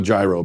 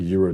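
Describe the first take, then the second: First: "gyro" as JAI-roh; preferred mispronunciation. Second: "euro" as YEE-roh; pronounced with Y. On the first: Host sticks with the old version, JAI-roh. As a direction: keep the J in "gyro". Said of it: "I'm sticking with gyro". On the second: Host dismisses the correct version, YEE-roh. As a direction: start "euro" with a Y sound. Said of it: "euro just sounds weird". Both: Shown as a demonstration.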